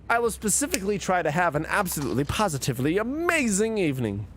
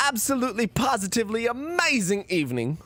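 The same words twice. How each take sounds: First: Said in the usual way. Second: A botched, half-laughing British accent, pitched up; failed British accent. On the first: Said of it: "I'm supposed to say a thingy, but in a British accent". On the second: Shown as a demonstration. Streamer attempts a British sign-off for chat, badly. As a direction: try a British accent and fumble it. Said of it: "Fuck, I can't do it".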